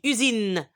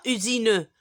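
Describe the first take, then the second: First: Usine ending on the n, u-zin; silent final e. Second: Usine with the final e sounded, u-zi-neu; wrong pronunciation. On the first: Teacher showing learners the correct word, usine with silent final e. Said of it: "je dis usine". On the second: Teacher showing learners what not to say, usine with sounded final e. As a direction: add an audible "eu" to the end of USINE. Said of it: "je dis pas usine". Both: Shown as a demonstration.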